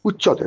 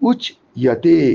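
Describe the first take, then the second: First: The ch sound is doubled with no glide. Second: A y glide follows the ch sound. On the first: The speaker calls it wrong. "উচ্চতে নয়" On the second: The speaker calls it right. "উচ ইয়াতে জফলা ইয়া উচ্চারণ হয়"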